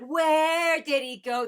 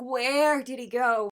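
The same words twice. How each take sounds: First: High, slow, imitated desperate lyric; desperate plea. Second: Slow, slightly raised imitated desperation; a lighter echo of the searching cry; desperate plea. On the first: Fan imitating singer's lyric, slow high desperate plea. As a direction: echo the singer's searching cry. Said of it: "I love that desperation". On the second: Fan re-quoting the lyric, a milder desperate plea. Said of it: "you can hear that desperation".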